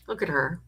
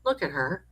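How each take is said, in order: First: Said in the usual way. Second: Whispered Look at her, soft and hushed. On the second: Real, not acted. Host admiring a sweet viewer's picture, whispering. Cooing over a viewer's photo.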